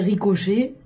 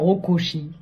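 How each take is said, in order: First: It starts 'ri' and ends with 'chay'. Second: It starts 'ro' and ends with 'chee'. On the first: The speaker calls it right. "Au lieu de me dire ricochet" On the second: The speaker calls it wrong. "il va me sortir rocochi"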